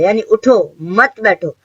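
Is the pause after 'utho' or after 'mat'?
after utho. There is a pause after 'utho'.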